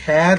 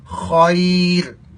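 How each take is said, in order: First: خیر with a weak, thin kh, like ayr; خیر said thinly, the common mistake; wrong pronunciation. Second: خیر with a full-mouth, heavy kh; correct pronunciation. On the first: Teacher demonstrating the wrong thin خیر. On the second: Teacher showing the correct full-mouth خیر. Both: Shown as a demonstration. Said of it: "خا کو فل mouth پڑھیں گے".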